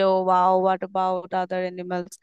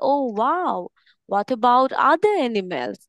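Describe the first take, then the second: First: It is read out flatly without excitement. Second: It is said loudly with excited rising and falling. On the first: The speaker calls it wrong. "এভাবে যদি reading পড়ে" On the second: The speaker calls it right. "Excited হয়ে বলছি"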